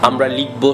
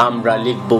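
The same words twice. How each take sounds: Both takes have the same delivery.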